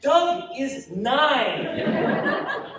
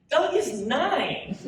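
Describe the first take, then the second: First: Very slow, high, loud, stretched through laughter; mother laughing, can barely say it; laughing disbelief. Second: Slow, high words through a laugh; mother laughing at her son's tavern claim; laughing disbelief. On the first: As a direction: drag it out while laughing. Mother laughing at son's claim. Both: Acted.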